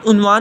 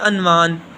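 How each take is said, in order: First: The first vowel is a 'u' sound. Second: The first vowel is an 'a' sound. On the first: The speaker calls it right. "उन्वान के ऊपर पेश है ... उन्वान हमारे पास दुरुस्त है" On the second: The speaker calls it wrong. "लोग इसको पढ़ते हैं अनवान"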